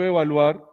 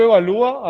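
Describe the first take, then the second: First: "evaluar" with "luar" as one final syllable, stressed a; diphthong stressed at end. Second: "evalúa" with a high, loud LÚ, separate falling a; hiatus stressed on ú. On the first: Teacher contrasting diphthong with hiatus, final stress. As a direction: glide u into a in "evaluar", stress last. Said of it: "la separación de la palabra es muy diferente". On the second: Teacher contrasting hiatus with diphthong, stressed ú. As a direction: lean hard on the "lú" in "evalúa". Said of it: "hay hiato". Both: Shown as a demonstration.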